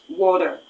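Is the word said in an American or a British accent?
American. It is said with an American accent. "water in American English is water"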